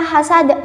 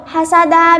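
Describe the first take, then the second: First: "hasad" stopped with a bouncing final d; echoed d closing "hasad"; qalqalah kubra. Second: Said in the usual way. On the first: Shown as a demonstration. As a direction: drop the last vowel of "hasad" and rebound the d. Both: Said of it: "bila waqaf dibaca hasad".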